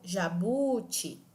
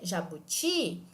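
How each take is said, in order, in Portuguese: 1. A sílaba do meio é prolongada e tônica. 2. A última sílaba é prolongada e tônica. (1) "tampouco jabuti. Fica estranho essa pronúncia" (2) "eu consigo manter uma pronúncia adequada mesmo arrastando essa letra"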